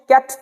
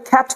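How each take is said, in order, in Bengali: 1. প্রথম ব্যঞ্জনটি সাধারণ, বাতাসের ফুঁ ছাড়া। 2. প্রথম ব্যঞ্জনে বাতাসের জোরালো ফুঁ থাকে। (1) "ক হচ্ছে ক্যাট" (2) "তো খ্যাট হয়ে যাবে"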